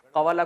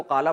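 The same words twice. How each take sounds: First: Said in the usual way. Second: قالا with the و dropped into a long aa; contracted pronunciation. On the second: Shown as a demonstration. Teacher showing students how the root is read, contracted pronunciation. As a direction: say قالا in two syllables, no w sound. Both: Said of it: "قوالا کو قالا پڑھتے ہیں".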